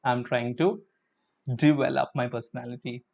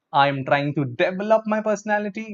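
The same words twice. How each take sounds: First: "develop" with di at the start, softer; correct develop. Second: "develop" with a clear deh at the start; "develop" said dev-el-op, a touch higher; wrong develop. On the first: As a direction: say "develop" as di-vel-up. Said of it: "It is develop". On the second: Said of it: "No, no, no, no, no". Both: Shown as a demonstration.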